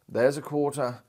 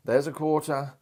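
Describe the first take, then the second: No difference in how they are said.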